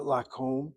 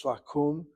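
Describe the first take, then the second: First: Lakum said with a long O, "la-kome"; wrong vowel. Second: Lakum said with an OO, "la-koom"; correct vowel. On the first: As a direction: say lakum as "la-kome", the mistaken reading. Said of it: "this is not lakum". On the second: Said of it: "it's lakum". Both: Shown as a demonstration.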